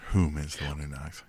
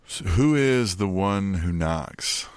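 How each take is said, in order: First: "Whom" stressed as a pedantic correction, much softer; a quiet, dry "Whom" said as a joke fix; mock-correct whom. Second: Said in the usual way. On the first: Shown as a demonstration. Host jokingly correcting his own "who" to a soft, stressed "Whom".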